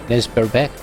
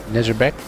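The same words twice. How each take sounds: The two takes are said the same way.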